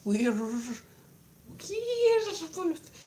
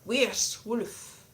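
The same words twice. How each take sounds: First: "werewolf" drawn out slowly, the second part lifted high; Middle English werewolf. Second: "Werewolf" said slowly, falling, her usual way; her own werewolf. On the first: Vlogger trying the Middle English way, slow and high. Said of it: "I'm gonna go for the Middle English". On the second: Vlogger settling on her own way, slow falling werewolf. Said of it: "I'm gonna carry on saying it like that". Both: Shown as a demonstration.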